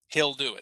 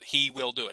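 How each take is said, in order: First: It is said quickly, contracted to he'll. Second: It is said slowly, with he and will separate.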